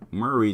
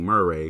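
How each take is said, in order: First: The name is said in a plain, ordinary way. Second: The name is said with a stylized, flavorful twist. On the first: "Murray just seems so plain" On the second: "that gives it a little bit more flavor"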